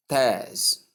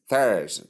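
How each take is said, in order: First: Theirs as TEZ, starting on a hard t. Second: Theirs as THERZ, starting on th; correct th sound. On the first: Teacher showing learners the wrong syllable, t for th. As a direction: say "theirs" with t replacing th. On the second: Teacher giving learners Thursday's first syllable, correct th sound. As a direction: say "Theirs" with a clear th, not t. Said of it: "Note it". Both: Shown as a demonstration.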